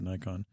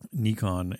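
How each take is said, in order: First: The first vowel sounds like 'eye'. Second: The first vowel sounds like 'ee'. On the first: The speaker calls it wrong. "they think that it's an I sound, and so they pronounce it Nikon" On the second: The speaker calls it right. "an I is actually pronounced as an E ... So Nikon is correct"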